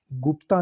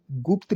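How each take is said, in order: First: गुप्ता said as "guptaa"; wrong ending. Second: गुप्त said as "gupt"; careful one-syllable "gupt" for गुप्त; correct ending. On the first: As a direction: end गुप्ता on a long aa. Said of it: "गुप्ता नहीं". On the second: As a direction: cut गुप्त off on the t. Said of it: "गुप्त लिखा जाएगा". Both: Shown as a demonstration.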